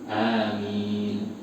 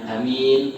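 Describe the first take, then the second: First: Both vowels are long, with a single m. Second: The first vowel is short, the second long. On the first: An appeal for God to answer the prayer. The speaker calls it right. "yang betul dua-duanya panjang" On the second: A person who is trusted. The speaker calls it wrong. "Kalau nggak panjang"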